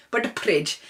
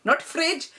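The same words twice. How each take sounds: First: "fridge" said "pridge" with p; Desi "fridge". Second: Said in the usual way. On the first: Shown as a demonstration. Parent's "fridge" said as "pridge". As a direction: start "fridge" with a p. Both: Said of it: "not... but".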